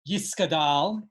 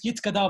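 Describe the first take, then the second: First: The word has an s sound after 'Yi'. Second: The word has a t sound after 'Yi'. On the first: The speaker thinks they are speaking Yiddish. "if you think that you're speaking Yiddish" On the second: The speaker thinks they are speaking Hebrew. "if you're speaking Hebrew"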